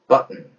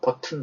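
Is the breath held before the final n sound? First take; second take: yes; no. First: The breath is held, then the n is released. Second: Both syllables have full vowels, with no held breath. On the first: The speaker calls it right. "소리를 내고 난 뒤에 숨을 참습니다. 그리고 은 하고 내뱉는다" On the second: The speaker calls it wrong. "버튼 아니죠?"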